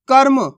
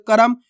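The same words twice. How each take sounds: First: कर्म as one syllable, "karm"; half R. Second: कर्म sounded as "ka-ram", full ra; three-letter reading. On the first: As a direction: run the r of कर्म straight into m: "karm". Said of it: "इसको कैसे पढ़ रहे". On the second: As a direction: give कर्म two syllables: "karam". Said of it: "तीन अक्षर वाले शब्द". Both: Shown as a demonstration.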